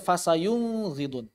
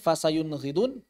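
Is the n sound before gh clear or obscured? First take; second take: obscured; clear. First: The n sound before gh is blurred. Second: The n sound before gh is said clearly. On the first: The speaker calls it wrong. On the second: The speaker calls it right.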